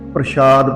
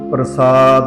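First: The middle consonant is an sh sound. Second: The middle consonant is a plain s sound. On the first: The speaker calls it wrong. "ਇਹ ਬਹੁਤਾ ਕਰਕੇ ਪ੍ਰਸ਼ਾਦ ਪੜਿਆ ਜਾਂਦਾ" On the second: The speaker calls it right. "ਸ਼ੁੱਧ ਉਚਾਰਨ ਹੈ ਜੋ ਇਹ ਪ੍ਰਸਾਦ ਹੈ"

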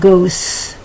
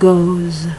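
First: The word ends with a hissing s sound. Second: The word ends with a buzzing z sound. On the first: The speaker calls it wrong. "Not goes" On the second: The speaker calls it right. "that S sounds more like a Z"

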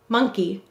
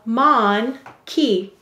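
First: The first syllable is said 'muhn', run smoothly into the second. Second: The first syllable is said 'mon', split clearly from the second. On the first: This is the normal spoken word. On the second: This is a spelling pronunciation that matches the letters.

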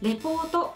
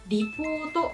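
First: The first vowel sounds like "re". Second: The first vowel sounds like "ri". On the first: The speaker calls it wrong. "レポートではありません" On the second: The speaker calls it right. "Report はリポートのように聞こえます"

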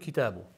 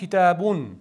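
First: The word ends on a bare u vowel. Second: The word ends with an added n sound. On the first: "Asli so'zning o'zak harflari shu kitobu" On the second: "deb un bilan aytilish holati bor"

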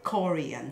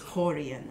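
First: The word begins with a hard K sound. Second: The word begins with a guttural H sound. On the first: The speaker calls it wrong. "people actually take it as the K" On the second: The speaker calls it right. "it's a guttural H sound"

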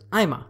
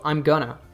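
First: The phrase is reduced to 'I'ma'. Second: 'Going to' is reduced to 'gonna'. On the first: "the third level connected speech reduction here is I'ma" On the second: "I'm going to reduces to I'm gonna"

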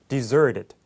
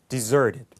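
Both takes have the same delivery.

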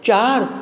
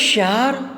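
First: The word begins with a ch sound. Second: The word begins with an sh sound.

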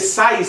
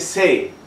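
First: The word ends with an audible s sound. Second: The word ends in a vowel with no s. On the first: The speaker calls it wrong. "No se dice sais" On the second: The speaker calls it right. "se dice sé"

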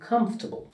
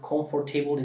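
First: The middle r sound is dropped. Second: The middle r sound is pronounced. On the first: The speaker calls it right. "Aradaki R de söylenmiyor" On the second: The speaker calls it wrong. "Birisi comfortable dediğinde seni anlayabilir"

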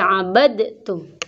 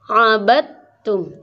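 First: The d sound is pronounced before the t. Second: The d merges straight into a doubled t. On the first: The speaker calls it wrong. "tidak boleh abadtum" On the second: The speaker calls it right. "tapi diidghamkan. Ini menjadi abadtum"

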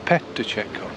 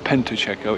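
First: The first syllable is said as 'pe'. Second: The first syllable is said as 'pen'. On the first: The speaker calls it right. "It's PETACCIATO" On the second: The speaker calls it wrong. "or PENTACCIATO"

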